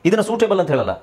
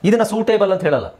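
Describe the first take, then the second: Both takes have the same delivery.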